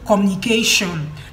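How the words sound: The word ends with a 'shon' sound. "Instead of saying communication like Nigerians"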